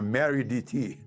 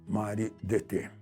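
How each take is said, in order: First: The name is said with American English pronunciation. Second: The name is said with Portuguese pronunciation.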